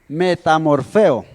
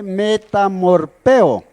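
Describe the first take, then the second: First: The middle consonant is an f sound. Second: The middle consonant is a p sound. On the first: This is how the word is actually pronounced. "se pronuncia metamorfeo" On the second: This is how the word reads on the page. "una frase que se lee metamorpeo"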